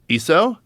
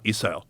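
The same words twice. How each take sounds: First: The pitch rises at the end. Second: The pitch falls at the end. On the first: It asks whether the listener has it. "You have that?" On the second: It states that the listener has it. "you have that"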